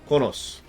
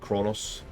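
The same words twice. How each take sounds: First: The word is said without an R sound. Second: The word is said with an R sound.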